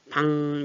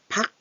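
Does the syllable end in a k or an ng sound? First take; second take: ng; k. First: The syllable ends in a nasal ng sound. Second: The syllable ends in a k sound. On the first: The speaker calls it right. "방 얘랑 비슷하게 바뀌어요" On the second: The speaker calls it wrong. "박 이렇게 하는 것보다"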